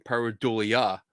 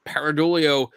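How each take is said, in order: First: Said in the usual way. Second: "pareidolia" with a Philly "PAIR" start and an "-oh" ending; Philly accent. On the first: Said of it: "sorry, is". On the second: Real, not acted. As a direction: say "pareidolia" as "PAIR-uh-DOH-lee-oh", Philly style. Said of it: "my Philly accent's coming through".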